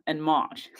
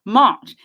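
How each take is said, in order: First: Said in the usual way. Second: March punched out loud on its own; stressed March. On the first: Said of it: "between now". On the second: Real, not acted. Host to viewers, repeating March with loud emphasis. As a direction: hit "March" hard and loud like an exclamation. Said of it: "Do you know when that was?".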